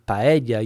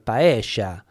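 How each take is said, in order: First: The double L has the usual Spanish sound. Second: The double L has the River Plate sound. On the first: "instead of saying paella" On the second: "the double L sound is pronounced differently"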